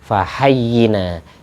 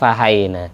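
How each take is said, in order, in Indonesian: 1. Bunyi y ditahan dan dibaca ganda. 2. Bunyi y dibaca pendek dan tunggal. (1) "yang benar fahayyina, yaknya tasdid"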